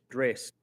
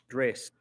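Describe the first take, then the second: Both takes have the same delivery.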